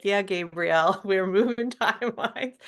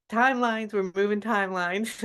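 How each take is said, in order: First: Laughing. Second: Said in the usual way. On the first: Retold or imitated. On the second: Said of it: "And he's like".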